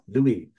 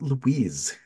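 First: The name ends without any S sound. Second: The name ends with an audible S sound. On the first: The speaker calls it right. "You don't say the S" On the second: The speaker calls it wrong. "not Louise"

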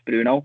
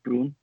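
First: The final vowel is fully pronounced. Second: The final vowel is soft, almost dropped. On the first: This is the English pronunciation. "we would pronounce Bruno in English" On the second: This is the Portuguese pronunciation. "in Portuguese it's very soft O at the end"

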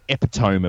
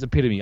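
First: The word is pronounced in an odd, jokey way. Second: The word is pronounced in the standard way. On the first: The speaker is joking. The speaker calls it wrong. "I was trying to make it funny" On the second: The speaker means it seriously. The speaker calls it right. "No, it's epitome"

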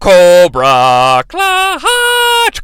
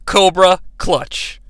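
First: It imitates the voice from G.I. Joe. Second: It is said in his normal voice.

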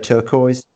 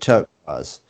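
First: It is said with a Midlands accent. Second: It is said with a posh accent.

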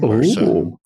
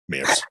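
First: The name is said with two syllables. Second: The name is said with one syllable. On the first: This is the proper way to say the name. "depending on how you want to pronounce it correctly" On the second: This is how most people say the name. "like everybody else in the world pronounces it"

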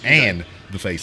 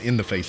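First: The word 'and' is fully said and stressed. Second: The word 'and' is reduced to a weak 'in'. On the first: It names two different people. The speaker calls it right. "You got to put emphasis on the "and,"" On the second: It sounds like ice hitting someone's face. The speaker calls it wrong. "usually when people say it, they say ice in the face"

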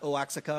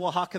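First: The name is pronounced in an anglicized way. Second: The name is pronounced the Spanish way. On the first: The speaker calls it wrong. "not Oaxaca or whatever you want to say it" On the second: The speaker calls it right. "That's how you say it"

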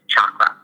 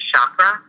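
First: The first sound is a hard CH. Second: The first sound is a softer sh-like sound. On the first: This is the precise pronunciation. "if you wanted to say it precisely, it's chakra with a hard CH" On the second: This is the common everyday pronunciation. "the common way of saying it is chakra"

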